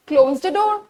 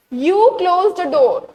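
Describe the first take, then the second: First: Said in the usual way. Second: "You" stressed and stretched out; stress on wrong subject. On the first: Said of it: "The right sentence is what?". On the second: Shown as a demonstration. Teacher showing a common exam mistake, stressed "You". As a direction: lean slowly on "You", the word that is wrong. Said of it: "It is wrong".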